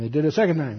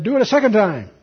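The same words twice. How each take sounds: First: Said in the usual way. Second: Higher, raised-voice order; commanding. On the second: Acted. Elijah ordering more water poured, raised command. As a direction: give a firm command. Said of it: "And he said".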